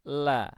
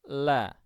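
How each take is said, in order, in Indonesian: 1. L-nya tipis, dengan tenggorokan longgar dan terbuka. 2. L-nya tipis, dengan tenggorokan longgar dan terbuka.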